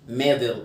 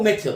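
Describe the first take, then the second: First: The middle consonant sounds like a soft d. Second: The middle consonant sounds like a clear t. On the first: "امريكان اكسنت ميدل" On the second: "الاثنين صح"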